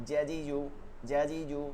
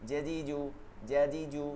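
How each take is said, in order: No difference in how they are said.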